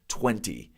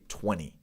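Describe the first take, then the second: First: The second t is clearly pronounced. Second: The second t is left out. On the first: "I try to hit my T's. I try to say twenty" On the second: "They wouldn't say that second T"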